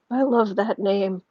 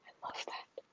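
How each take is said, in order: First: Said in the usual way. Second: Barely audible whisper; whispered delight. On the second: Real, not acted. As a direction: repeat it under your breath. Repeats it under breath.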